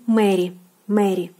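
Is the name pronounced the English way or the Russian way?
Russian. The name is said with Russian pronunciation. "and in Russian"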